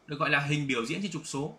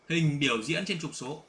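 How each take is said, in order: First: Said in the usual way. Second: Hình biểu diễn trên trục số said slowly, word by word; slow repeat for emphasis. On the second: Shown as a demonstration. (đọc chậm rãi từng chữ để nhấn mạnh) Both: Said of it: "Đấy".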